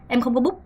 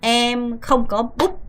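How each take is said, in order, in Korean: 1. 이 구절은 아주 빠르게 말해요. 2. 이 구절은 천천히 말해요. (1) "엄청 빠르죠?" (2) "너무 어려울 때는"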